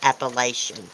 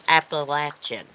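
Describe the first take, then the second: First: The word is said the outsiders' way. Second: The word is said the local way. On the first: The speaker calls it wrong. "A lot of city fights say people say Appalachian. It's not Appalachian" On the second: The speaker calls it right. "It's Appalachian"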